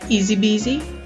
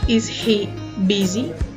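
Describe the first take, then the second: First: The words are linked like one word. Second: The words are said separately. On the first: The speaker calls it right. "We just go ... Like it was just one word" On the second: The speaker calls it wrong. "We don't say"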